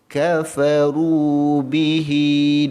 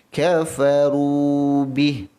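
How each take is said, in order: First: The phrase ends with a lengthened 'hi' vowel. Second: The phrase ends on a bare 'h' consonant. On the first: The reciter continues to the next words. "Tapi kalau kita sambung" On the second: The reciter stops at this word. "Kalau waqaf"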